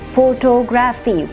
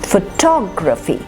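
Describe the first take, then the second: First: All syllables get equal stress. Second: One syllable is stressed more than others. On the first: The speaker calls it wrong. "We're giving equal stress to all syllables" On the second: The speaker calls it right. "One syllable will always carry more stress"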